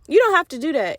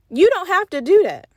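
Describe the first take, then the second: First: "You don't have to do that" repeated a little gentler, stress moved to "don't"; softer repeat. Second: "you don't have to do that" pushed higher and louder, punching "do"; emphatic plea. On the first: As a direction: ease off, lean lightly on "don't". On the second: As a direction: press hard on "do" in "do that". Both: Real, not acted.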